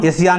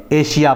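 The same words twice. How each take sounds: First: एशिया said with a plain s, like "esiya"; wrong pronunciation. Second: एशिया said with sh, like "eshiya"; correct pronunciation. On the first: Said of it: "एशिया नहीं पढ़ेंगे". (एशिया को 'स' से, गलत उच्चारण) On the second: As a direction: say एशिया with a clear sh sound as the right way. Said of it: "एशिया पढ़ेंगे". (एशिया को तालव्य 'श' से, सही उच्चारण) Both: Shown as a demonstration.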